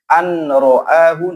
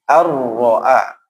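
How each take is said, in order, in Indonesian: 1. Bunyi n dibaca sebelum r. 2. Bunyi n dilebur ke dalam r. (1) "walaupun ada nun tidak boleh an ro'ahu" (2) "tapi harus ar-ro'a"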